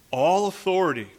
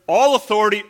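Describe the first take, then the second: First: Deliberate, weighty reading of the verse; measured scripture reading. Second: Loud, raised voice punching the words; forceful preaching. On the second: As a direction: proclaim it with full pulpit force. Repeats verse with more force. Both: Real, not acted.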